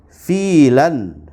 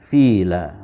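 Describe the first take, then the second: First: The word ends with an 'an' sound. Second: The word ends with a long 'a' sound. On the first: The word is read without stopping on it. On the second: The reader stops on the word.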